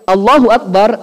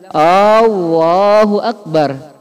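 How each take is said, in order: First: The opening vowel is kept short. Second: The opening vowel is drawn out long. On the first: It states that God is greatest. The speaker calls it right. "Allahu Akbar artinya Allah Maha Besar" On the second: It turns the phrase into a question. The speaker calls it wrong. "jangan bilang Allahu Akbar"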